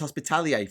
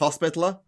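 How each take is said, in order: First: The word ends with a 'lier' sound. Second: The word ends with a 'ler' sound. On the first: The speaker calls it wrong. "I misread it as hospitalier for so long" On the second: The speaker calls it right. "But apparently it's hospitaler"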